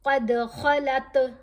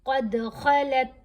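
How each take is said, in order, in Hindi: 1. अंतिम त को गूंजते हुए झटके के साथ छोड़ा जाता है। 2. अंतिम त को बिना छोड़े, बीच में ही रोक दिया जाता है। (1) "ता के ऊपर कलकला हो रहा है" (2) "दांत है ना वो बंद कर लेने हैं"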